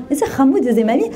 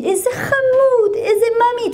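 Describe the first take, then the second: First: Said in the usual way. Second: Very high, drawn-out cooing; sugary high-pitched singsong praise; gushing nursery teacher. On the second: Retold or imitated. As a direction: imitate a teacher gushing over a little darling. Nursery teacher gushes over the child.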